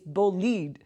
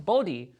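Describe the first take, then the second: First: The word sounds like 'bo-leed'. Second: The word sounds like 'bold-ee'. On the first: The speaker calls it right. "it's actually B O L I D E. It's bolide" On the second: The speaker calls it wrong. "we were pronouncing Bodhi"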